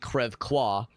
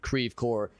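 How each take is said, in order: First: It is said with a French pronunciation. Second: It is said with an American local pronunciation. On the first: This is how a French speaker would say it. The speaker calls it right. "In French, it would of course be" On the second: This is how the locals say it. The speaker calls it wrong. "That's how Saint Louisans pronounce it"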